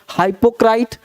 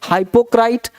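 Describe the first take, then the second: The two takes are said the same way.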